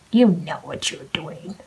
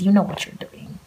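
First: Slower and whispered, pointed; a slow knowing whisper. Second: Said in the usual way. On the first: Shown as a demonstration.

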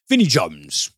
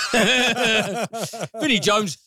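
First: Said in the usual way. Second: Laughing. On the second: Real, not acted. Podcaster laughing at the casting of Vinnie Jones. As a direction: repeat the name through a real laugh.

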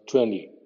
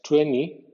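First: Twenty with N then an English D, "twendy"; twenty with a D after the N; right twenty. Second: Twenty with the T dropped, like "tweny"; twenty with no T sound; wrong twenty. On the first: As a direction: say twenty as "twen-dee". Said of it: "es N más D inglesa". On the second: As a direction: say twenty as "twenni", the form to avoid. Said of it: "no es N I". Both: Shown as a demonstration.

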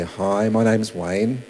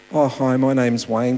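First: Unhurried, low-pitched hello to a stranger; ideal friendly introduction. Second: Casual, run-together hello; real-life introduction. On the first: Evangelist greeting somebody in the ideal version, slow and easy. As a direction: introduce yourself slowly, taking your time. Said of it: "That ideal looks like you go up". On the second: Evangelist approaching a stranger in real life, casual and brisker. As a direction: open a pitch to a stranger without ceremony. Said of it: "in real life? What does it look like". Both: Acted.

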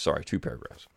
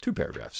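First: Whispered self-correction under the breath; a soft, breathy aside correcting a slip; muttered correction. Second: Said in the usual way. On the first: Real, not acted. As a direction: mutter the fix to yourself.

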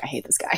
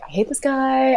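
First: Soft, low under-the-breath grumble; quiet grumble. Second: Higher, exasperated complaint; pitched-up fed-up moan. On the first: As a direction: mutter it so nobody hears. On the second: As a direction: whine it out in frustration. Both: Retold or imitated. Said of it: "I was like".

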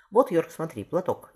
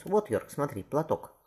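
First: Louder, higher theatrical delivery; stage declamation. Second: Higher but unforced declamation; stage recital. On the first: Burbage shows young Paul how to play tragedy, declaiming. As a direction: declaim it to the galleries. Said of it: "Совсем не так это надо говорить". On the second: Shakespeare shows Paul the same line on stage, contained declamation. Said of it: "Уильям тебе то же самое скажет". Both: Acted.

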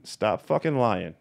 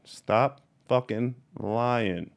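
First: Said in the usual way. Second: Very slow, each word of "Stop fucking lying" set apart; slow emphasis. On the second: Real, not acted. Telling off fake breeders, slow and emphatic. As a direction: draw out every word with pauses between.

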